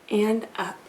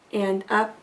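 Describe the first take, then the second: No difference in how they are said.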